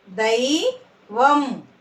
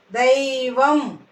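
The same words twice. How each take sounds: First: "దైవం" split, rising దై, then వం; "దైవం" in two separate syllables. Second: Said in the usual way. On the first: Shown as a demonstration. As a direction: slowly sound out "దైవం" with a gap. Teacher sounds out syllables.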